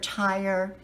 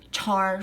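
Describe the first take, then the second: First: The vowel is a gliding 'eye' sound. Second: The vowel is a flat 'ah' sound.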